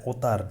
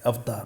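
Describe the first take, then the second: First: अवतार mispronounced as औतार, without v; wrong pronunciation. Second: Said in the usual way. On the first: Shown as a demonstration. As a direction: turn the av of अवतार into one o vowel. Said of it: "अवतार नहीं होता है". (अवतार में व गायब, औतार) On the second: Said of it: "अवतार होता है".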